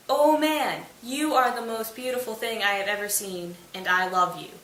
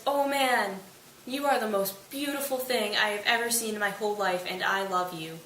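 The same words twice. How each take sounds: First: Hammed-up adoration, hitting the first words hard; emphatic love-struck declaration. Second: Mild swooning, easing down at the end; lightly acted adoring declaration; love-struck gushing. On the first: Titania repeats it, now visible. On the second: Love-struck Titania's first, unheard declaration.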